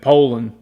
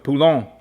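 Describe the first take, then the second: First: The name is said with an American pronunciation. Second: The name is said with a Cajun French pronunciation. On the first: "Here in America, typically we consider it the right thing to say Poland" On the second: "What they said was Poulon. ... It's French Cajun"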